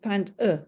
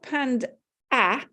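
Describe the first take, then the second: First: The final vowel is a weak 'uh' schwa. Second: The final vowel is a full open 'ah'. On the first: The speaker calls it right. "it's panned uh" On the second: The speaker calls it wrong. "it's not panned ah"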